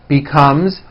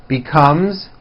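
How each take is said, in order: The two takes are said the same way.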